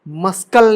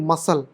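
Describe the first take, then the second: First: A k sound is heard after the s. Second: No k sound is heard after the s. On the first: The speaker calls it wrong. "मस्कल नहीं" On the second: The speaker calls it right. "नहीं मसल"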